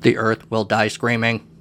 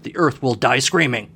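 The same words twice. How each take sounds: First: It is said in a Dalek voice. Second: It is said in his normal voice.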